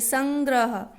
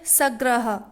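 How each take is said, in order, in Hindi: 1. g से पहले हल्की n ध्वनि आती है। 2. इसे बिना n की ध्वनि के बोला जाता है। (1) "हल्का सा न की आवाज आई" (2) "सग्रह तो कोई शब्द नहीं होता"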